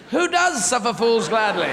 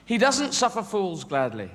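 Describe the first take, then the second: First: "does" punched higher and louder; incredulous question leaning hard on "does"; stress on does. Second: Said in the usual way. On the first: Real, not acted. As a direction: hit the word "does" to challenge the saying. Challenging the saying just quoted. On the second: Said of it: "And sayings as well".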